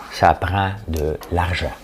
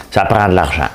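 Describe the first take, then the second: First: Dry mock repetition; slow deadpan repeat. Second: Louder mocking parody of her slogan; imitating mayor demanding money. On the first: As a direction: let the slogan drag sarcastically. Repeats slogan slower, softer. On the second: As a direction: sneer her catchphrase.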